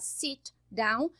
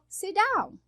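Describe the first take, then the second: First: Both words are said fully and separately. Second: The words run together with one blended consonant. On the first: "ao invés de falar sit down" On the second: "eu falo sit down"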